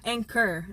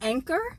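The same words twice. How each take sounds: First: It sounds like 'anger', with no clear k. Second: It has a clear k sound: 'anchor'. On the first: The speaker calls it wrong. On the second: The speaker calls it right.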